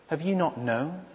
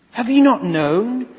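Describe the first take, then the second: First: Softer, inward asking of the question; hushed question. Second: Louder, pressing rhetorical question; raised question. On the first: Preacher quietly posing Isaiah's question, hushed. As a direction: murmur it as if to yourself. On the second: Preacher pressing Isaiah's question on the listeners, louder. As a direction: push it at the congregation. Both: Shown as a demonstration. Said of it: "repeated question, hushed then raised".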